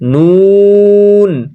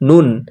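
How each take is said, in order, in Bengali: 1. স্বরধ্বনিটি লম্বা করে টেনে বলা হয়। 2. স্বরধ্বনিটি ছোট রাখা হয়। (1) "তিন আলিফ টান দিয়ে পড়বো নুন" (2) "এক আলিফ টান দিয়ে পড়ি তাহলে কেমন হয়?"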